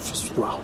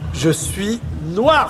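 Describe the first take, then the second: First: It is said at a plain, ordinary level. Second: It is said in a proud tone.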